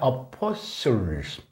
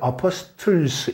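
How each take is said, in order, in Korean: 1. 가운데 t는 묵음입니다. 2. 가운데 t는 발음됩니다. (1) "이 T가 묵음입니다" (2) "이게 아니라"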